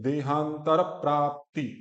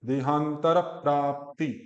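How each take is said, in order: Both takes have the same delivery.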